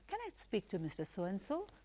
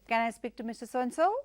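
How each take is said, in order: First: The voice rises at the end. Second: The voice falls at the end. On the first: The speaker calls it right. "So you have to use the rising tone" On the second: The speaker calls it wrong. "which is a falling tone"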